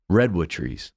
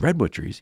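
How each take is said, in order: First: Said in the usual way. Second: "Redwood trees?" asked back, rising in doubt; puzzled question. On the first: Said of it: "and then he said". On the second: Retold or imitated. Girl repeating the teacher's words back, puzzled, with a doubtful rising question. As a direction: echo "Redwood trees?" as if you can't believe it. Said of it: "She said".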